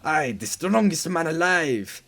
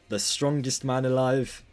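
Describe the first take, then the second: First: It is said in a put-on French accent. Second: It is said in the speaker's own accent.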